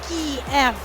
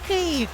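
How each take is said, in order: First: The first vowel is a long 'ee' sound. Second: The first vowel is a short 'ih' sound. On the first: The speaker calls it wrong. "not Kiev" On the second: The speaker calls it right. "this is how you pronounce Y in Ukrainian names"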